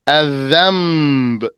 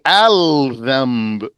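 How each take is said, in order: First: The L sound merges into a doubled following consonant. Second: The L sound is clearly pronounced before the consonant. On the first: The speaker calls it right. "Merge the lam into the Zal" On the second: The speaker calls it wrong. "You don't say Al-Dhamb"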